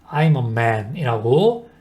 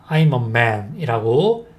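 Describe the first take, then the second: No difference in how they are said.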